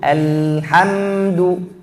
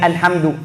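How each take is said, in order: First: The l and m sounds are drawn out. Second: The word is said quickly and rushed. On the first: The speaker calls it right. "Lam dan mim suaranya harus jalan" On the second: The speaker calls it wrong. "jangan buru-buru"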